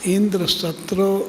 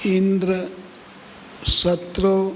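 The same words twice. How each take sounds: First: The two words run together without a pause. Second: There is a pause after the first word. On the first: Indra's enemy should grow. The speaker calls it right. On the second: Indra himself should grow against the enemy. The speaker calls it wrong.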